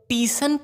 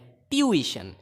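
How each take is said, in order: First: It is said as two syllables, tee-sun. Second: It is said as three syllables, tyoo-i-shun. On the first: The speaker calls it wrong. "टीसन पढ़ते हैं जो कि बिल्कुल ही गलत है" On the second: The speaker calls it right. "ये ट्यूइशन है"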